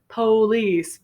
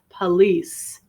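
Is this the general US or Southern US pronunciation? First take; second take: Southern; general. First: It is said with a Southern US pronunciation. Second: It is said with a general US pronunciation. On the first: "you might hear police in the South in the U S A" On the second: "more commonly spoken around the country is police"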